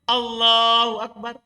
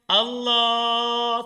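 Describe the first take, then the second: First: It is said short and quick. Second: It is stretched out long.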